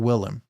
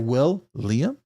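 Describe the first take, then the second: First: The name is run together without 'Liam'. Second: The name ends in a separate 'Liam' part.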